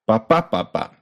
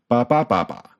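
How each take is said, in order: Both takes have the same delivery.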